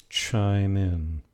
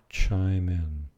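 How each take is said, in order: The two takes are said the same way.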